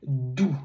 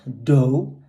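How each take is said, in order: First: Doux said with a short rounded ou sound, no glide; teacher's right way to say Doux; correct French doux. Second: Dough said as English with a gliding oh vowel; teacher's wrong way to say Doux. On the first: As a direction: give Doux its pure French ou vowel. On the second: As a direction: show the mistake, saying dough like the English word. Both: Shown as a demonstration. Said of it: "Not dough".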